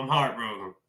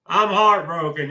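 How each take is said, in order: First: The echo of a real heartbreak, said lower and softer; soft sad repeat. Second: Said in the usual way. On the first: Real, not acted. Repeats his heartbreak line twice.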